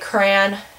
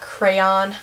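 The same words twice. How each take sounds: First: It is said in a Midwestern way. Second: It is said in a general American way. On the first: "we say crayon" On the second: "not crayon"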